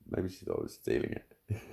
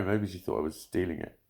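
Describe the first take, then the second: First: Whispered repeat. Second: Said in the usual way. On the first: Real, not acted.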